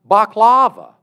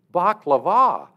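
First: "baklava" as bahk-LAH-vuh, loud on the middle; wrong-syllable stress. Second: "baklava" as bahk-luh-VAH, last syllable punched; corrected final-syllable stress. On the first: Classmate names the Greek dessert, "baklava" loudly stressed on LAH. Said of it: "telling people about baklava". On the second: Speaker corrects a classmate, "baklava" loudly stressed on VAH. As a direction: raise and hit the VAH of "baklava". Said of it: "do you mean". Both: Retold or imitated.

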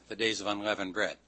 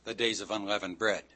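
No difference in how they are said.

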